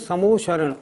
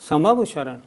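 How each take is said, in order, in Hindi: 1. बीच का हिस्सा सिकुड़कर एक 'mo' ध्वनि बन जाता है। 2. बीच का हिस्सा पूरा 'ma-va' अक्षरों के रूप में बोला जाता है। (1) "हम सब लोग उसका उच्चारण करते हैं समोशरण" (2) "नहीं नहीं, समवशरण"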